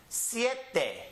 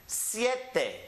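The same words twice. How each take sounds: The two takes are said the same way.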